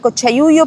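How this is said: It is said with a Chilean accent. "Para los chilenos sería"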